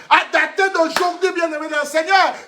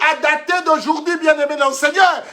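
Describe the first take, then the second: No difference in how they are said.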